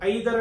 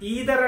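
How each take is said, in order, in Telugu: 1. మొదటి అచ్చు 'eye' లా వినిపిస్తుంది. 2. మొదటి అచ్చు 'ee' లా వినిపిస్తుంది. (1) "ఐదర్ అని కూడా చెప్తూ ఉంటాం" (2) "ఈదర్ అని చెప్పొచ్చు"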